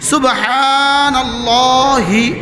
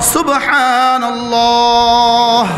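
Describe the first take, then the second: First: The word ends with a short i vowel. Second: The word ends on a bare h sound. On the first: The word is joined to what follows. "শব্দ ছিল সুবহানাল্লাহি" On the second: The reciter stops at this word. "ওয়াকফের সময় সাকিন"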